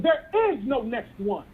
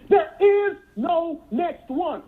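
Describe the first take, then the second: First: Said in the usual way. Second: "There is no next one" said very slowly, each word leaned on; slow emphatic repeat. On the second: Shown as a demonstration. Speaker driving "There is no next one" home to hesitant members, slow and emphatic. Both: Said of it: "Did you hear me?".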